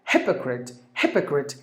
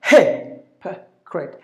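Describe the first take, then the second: First: "hypocrite" joined up as HIP-uh-crit; lower, softer "hypocrite", weight on HIP; stress on first syllable. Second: "hypocrite" as HI, puh, crit; slow "hypocrite" with a pause after each syllable. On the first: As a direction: say "hypocrite" whole, front-stressed. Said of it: "He should be given more volume". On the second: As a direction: punch HI, then two short parts in "hypocrite". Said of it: "that's how you have to pronounce". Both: Shown as a demonstration.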